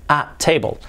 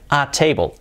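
No difference in how they are said.

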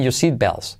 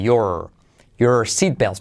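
First: The R at the end of your is nearly dropped. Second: The R at the end of your is pronounced. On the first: "dicho rápido, los nativos casi como que omiten la R" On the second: "y la R, letra clave"

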